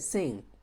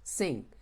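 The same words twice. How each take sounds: No difference in how they are said.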